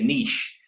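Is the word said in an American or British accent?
British. It is said in a British accent.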